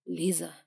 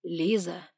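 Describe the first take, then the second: First: A hint of a low, firm man's call; stern man calling her name. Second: Stern man repeating her name. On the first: Guardian firmly calls the heroine's name, lightly voiced man. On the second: Guardian repeats her name, gripping her wrist, lightly voiced man. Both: A narrator's reading. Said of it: "вновь повторил".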